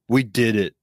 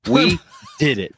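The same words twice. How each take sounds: First: It is said in a flat, sad tone. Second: It is said in an excited, celebratory tone. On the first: The achievement seems unimportant. The speaker calls it wrong. "You sound so sad about it" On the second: The achievement is a big deal. The speaker calls it right. "It's an exciting achievement in all of mankind"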